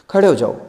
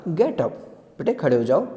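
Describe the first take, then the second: First: Loud sharp order; commanding. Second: Friendly tone. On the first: Teacher's tone shown wrong, as a loud command. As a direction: bark it as a command. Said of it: "ऐसे नहीं कही". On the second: Teacher gently asking Bholi to stand, friendly. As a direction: coax the child kindly. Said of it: "बस friendly tone में बोला". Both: Shown as a demonstration.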